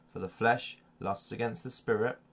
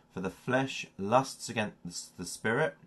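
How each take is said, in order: No difference in how they are said.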